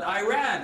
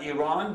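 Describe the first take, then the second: First: Iran said as "eye-RAN"; American pronunciation. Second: Iran said as "ee-RAHN"; native pronunciation. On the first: Comic demonstrates the American version, Iran as "eye-RAN". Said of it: "they call it Iran". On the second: Comic contrasts his country's own name, Iran as "ee-RAHN". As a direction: say Iran with an "ee" start and long "ah". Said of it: "It's not Iran, but Iran". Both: Shown as a demonstration.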